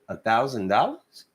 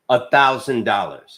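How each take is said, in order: First: It is said as a rising question. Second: It is said as a falling statement.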